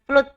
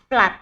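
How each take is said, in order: First: The double O is not said as 'a'. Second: The double O is said as 'a'. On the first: The speaker calls it wrong. "dibaca bukan flood bacanya ya" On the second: The speaker calls it right. "Dua O kok dibaca A ya"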